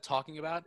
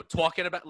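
First: Said in the usual way. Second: Loud, higher New York "talking"; exaggerated New York vowel in "talking"; New York accent. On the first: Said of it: "Instead of". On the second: Shown as a demonstration. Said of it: "I'll say, you know".

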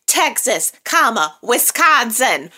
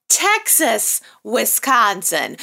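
First: "Texas, comma, Wisconsin" with a pause and fall on each word, the "comma" said out loud; spelled-out punctuation. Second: Said in the usual way. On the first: Shown as a demonstration. Mocking the show's line, spelling out "Texas, comma, Wisconsin" with a pause and fall on each word. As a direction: read it like an address, naming the "comma". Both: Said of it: "That's city and state".

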